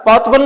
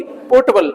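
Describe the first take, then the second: First: "पोर्टेबल" in two beats, open "port-bal"; portable, the wrong word. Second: "पोर्टेबल" as three syllables, "po-ta-bal"; potable, R silent. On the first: Teacher rules out the other word, "पोर्टेबल" as "port-bal". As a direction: say "पोर्टेबल" as "port-bal", middle vowel dropped. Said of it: "पोर्टेबल नहीं". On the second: Teacher gives the right word, "पोर्टेबल" R-less as "po-ta-bal". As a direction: drop the R in "पोर्टेबल", keep a middle "ta". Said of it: "ये आर silent रहेगी". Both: Shown as a demonstration.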